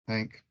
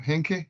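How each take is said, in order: First: The name is said as one syllable. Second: The name is said with two syllables. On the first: The speaker calls it right. "it's Hank" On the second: The speaker calls it wrong. "is that correct pronunciation?"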